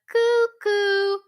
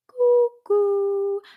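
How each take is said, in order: First: The sound is not round or hollow. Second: The sound is round and hollow. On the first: The speaker calls it wrong. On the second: The speaker calls it right.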